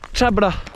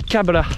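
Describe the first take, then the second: First: The word begins with a ch sound. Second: The word begins with a k sound. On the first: This is the northern dialect form. "au nord" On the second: This is the southern dialect form. "et ... au sud"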